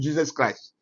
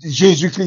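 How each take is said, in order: First: The name is pronounced the English way. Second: The name is pronounced the French way. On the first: The name has been translated into English. The speaker calls it wrong. "il ne doit pas dire Jesus Christ" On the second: The name is kept as in its original form. The speaker calls it right. "il doit dire aussi Jésus-Christ"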